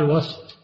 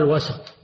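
First: وسط as one syllable, wast; sukun on sin. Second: وسط with an a after the s, wa-sat; fatha on sin. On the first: Teacher restating the rule for a single body, وسط said wast. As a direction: run the s of وسط straight into the t. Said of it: "بسكون السين". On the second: Teacher restating the rule for divisible things, وسط said wa-sat. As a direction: open the s of وسط into a short a. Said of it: "فإنه بالفتح". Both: Shown as a demonstration.

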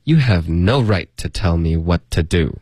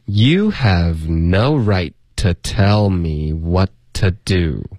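First: Slightly slow but connected sentence; measured model reading. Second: Very slow, drawn-out teaching read; slow model reading. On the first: Teacher gives the second model read, measured and connected. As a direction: read it through smoothly at a learner's pace. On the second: Teacher reads for students to repeat, very slowly. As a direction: stretch each word out for learners to follow. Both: Shown as a demonstration. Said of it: "那我们来读两遍".

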